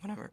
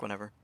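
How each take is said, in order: First: Voice crack. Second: Said in the usual way. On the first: Real, not acted. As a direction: voice cracks on whatever. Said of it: "Voice crack". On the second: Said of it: "Voice crack, whatever".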